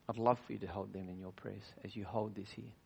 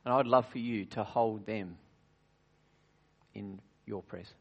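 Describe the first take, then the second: First: Said again much softer, gently; softer, tender repeat. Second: Said in the usual way. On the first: Shown as a demonstration. Preacher gently repeating the plea to the congregation, softly. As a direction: ease down and make the plea tender.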